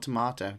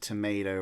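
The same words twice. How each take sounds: First: Tomato is said with a British pronunciation. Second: Tomato is said with an American pronunciation. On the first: The speaker calls it right. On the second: The speaker calls it wrong.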